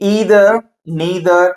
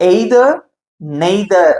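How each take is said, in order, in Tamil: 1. அமெரிக்க ஆங்கில முறையில் சொல்லப்படுகிறது. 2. பிரிட்டிஷ் ஆங்கில முறையில் சொல்லப்படுகிறது. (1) "அமெரிக்கன் இங்கிலீஷ்ல வந்து பாத்தீங்க அப்படின்னா எப்படி சொல்லுவாங்கன்னா" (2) "பிரிட்டிஷ் இங்கிலீஷ்ல வந்து பொதுவா எப்படி சொல்லுவாங்க"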